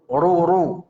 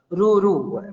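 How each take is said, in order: First: The r is heavy and thick. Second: The r is light and thin. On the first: The speaker calls it right. "Ra' tebal ini" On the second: The speaker calls it wrong. "masih membacanya tipis ra'nya"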